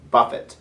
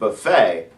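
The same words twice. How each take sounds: First: The final T is clearly sounded. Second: The final T is silent. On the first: It means a blow or to strike. "This has a hard T" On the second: It names a line of food. "the word buffet, a line of food"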